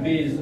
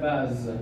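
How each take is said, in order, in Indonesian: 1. Vokalnya bunyi luncuran 'ay'. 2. Vokalnya bunyi 'ah' terbuka. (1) "bukan base" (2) "tetap dia akan dibaca baz ya"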